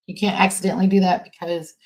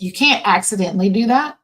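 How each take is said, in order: First: Said in the usual way. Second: Louder, pressing hard on "can't" with a rising push; emphatic. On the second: Real, not acted. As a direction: hammer home "can't" so it lands.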